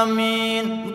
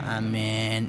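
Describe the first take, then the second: First: It is said with lively, full energy. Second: It is said weakly, with little energy. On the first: The congregation matches the leader's enthusiasm. The speaker calls it right. "Bila intonasinya samain" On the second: The congregation sounds half-hearted. The speaker calls it wrong. "makmumnya ngeceleh"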